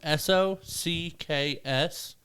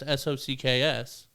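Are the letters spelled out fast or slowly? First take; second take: slowly; fast. First: The letters are spelled out slowly. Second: The letters are spelled out quickly. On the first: It sounds like a Spanish phrase meaning it is what it is. "If you slow that down" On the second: It just spells the English word socks. "But if you say it fast"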